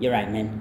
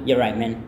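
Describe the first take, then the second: The two takes are said the same way.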